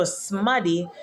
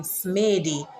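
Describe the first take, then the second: First: "smaddy" with short a and sharp D; Patois pronunciation. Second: "smady" with a long A, like "may"; misreading pronunciation. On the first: Explaining the double D, "smaddy" with short a. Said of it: "sharpens the D sound". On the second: Showing what one D would give, "smady" with long A. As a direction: say "smady" as smay-dee. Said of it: "spell it with one D". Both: Shown as a demonstration.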